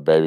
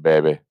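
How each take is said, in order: First: Said in the usual way. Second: Put-on Southern accent. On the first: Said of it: "Everyone's like". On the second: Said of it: "as Kevin Spacey would call him in a Southern accent".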